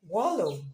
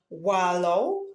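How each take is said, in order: First: It is said with a standard British/American pronunciation. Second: It is said with a Nigerian English pronunciation. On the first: "In the standard British and American English" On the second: "In Nigerian English variety"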